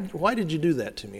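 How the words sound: It sounds honest and searching.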